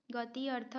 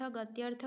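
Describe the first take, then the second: First: गति अर्थ as two separate words; split compound. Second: Said in the usual way. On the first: Shown as a demonstration. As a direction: keep the i of गति before अर्थ. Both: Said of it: "गति अर्थ गत्यर्थ होता है".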